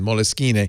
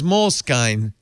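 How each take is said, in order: First: It is pronounced as an Italian word. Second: It is pronounced like English 'mole skin'. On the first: The speaker calls it right. "pretend it's Italian" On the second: The speaker calls it wrong. "is disgusting"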